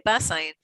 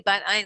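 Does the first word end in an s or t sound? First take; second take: s; t. First: The first word ends with an s sound. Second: The first word ends with a t sound. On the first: It names the book. "but really because they Bas Ayin" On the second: It names the village and the seminary. "I say Bat Ayin because the name of the of the the little cute little village is called Bat Ayin"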